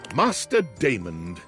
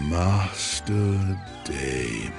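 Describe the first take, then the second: First: It is said in a plain British voice. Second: It is said in a sexier, seductive voice.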